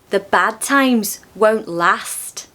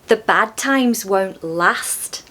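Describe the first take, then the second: First: It is said in a Scouse accent. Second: It is said in a Scouse accent.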